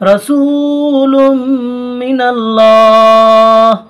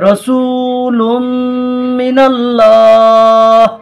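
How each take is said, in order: First: The last word ends on a bare consonant. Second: The last word ends on a bare consonant.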